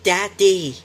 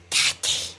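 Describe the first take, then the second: First: It is called out a bit louder. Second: It is called out softly.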